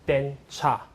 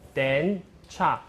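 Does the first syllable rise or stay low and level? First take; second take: low level; rises. First: The first syllable stays low and level. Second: The first syllable rises in pitch. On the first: "when I pronounce it together" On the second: "The rising then"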